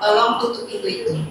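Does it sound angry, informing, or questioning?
informing. It is said as calm information.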